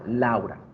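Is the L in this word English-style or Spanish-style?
Spanish. The L is said Spanish-style, mouth more open.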